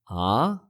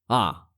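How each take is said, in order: First: The pitch rises from low to high. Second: The pitch falls sharply from high to low.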